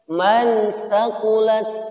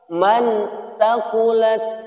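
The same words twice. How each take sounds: Both takes have the same delivery.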